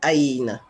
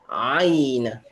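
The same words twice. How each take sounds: First: The first sound is said with a relaxed throat. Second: The first sound is said with a tightened throat. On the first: The speaker calls it wrong. "je dis pas Aïn" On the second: The speaker calls it right. "je contracte ma gorge"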